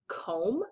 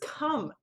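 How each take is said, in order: First: The vowel is a long O sound. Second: The vowel is a short U sound. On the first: The speaker calls it wrong. "do we say this word comb? No" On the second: The speaker calls it right. "making the sound like a U would make"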